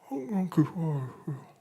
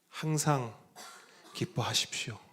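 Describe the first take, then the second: First: It is spoken mumbled, as through swollen lips. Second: It is spoken clearly and neatly.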